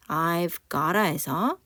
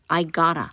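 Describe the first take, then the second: First: "I've gotta" slowly, keeping the v. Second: "I gotta" with no v, gotta flapped; v dropped. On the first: Teacher showing the form before the v drops. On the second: Teacher modelling the final reduced form. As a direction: drop the v and glide into "I gotta". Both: Shown as a demonstration. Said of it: "v가 탈락을 해버립니다".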